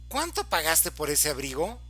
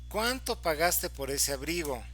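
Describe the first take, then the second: First: It is exclaimed with a tone of surprise. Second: It is asked as a plain, neutral question. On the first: The speaker is shocked at how expensive it was. "le voy a cambiar la modulación y lo voy a convertir en una, este, en una expresión de sorpresa" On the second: The speaker simply wants to know the price. "Si estoy haciendo una pregunta"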